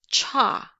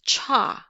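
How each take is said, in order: First: The tongue tip touches the ridge, English ch. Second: The same.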